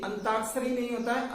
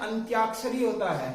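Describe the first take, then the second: First: अंताक्षरी said an-taak-sha-ri, with no y glide after t; wrong pronunciation. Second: अंत्याक्षरी said ant-yaak-sha-ri, with a clear ty glide; correct pronunciation. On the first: Teacher showing the class the common mispronunciation, no y glide. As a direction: drop the y sound in अंताक्षरी to show the mistake. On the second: Teacher giving the class the right form, clear ty glide. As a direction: sound the ty cluster in अंत्याक्षरी clearly. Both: Shown as a demonstration.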